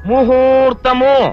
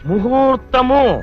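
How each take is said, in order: The two takes are said the same way.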